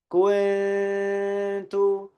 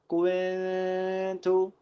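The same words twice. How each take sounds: First: No w sound; the n is concealed. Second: A w sound is slipped in after the k. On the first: The speaker calls it right. "yang benar adalah kita baca nun sakinahnya itu dengan samar" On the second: The speaker calls it wrong. "jangan sampai kita di situ menyelipkan ada huruf waw"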